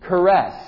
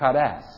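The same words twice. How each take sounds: First: It is said without a Greek accent. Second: It is said with a Greek accent. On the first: "I'm saying it without the accent" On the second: "Maybe the Greeks would say"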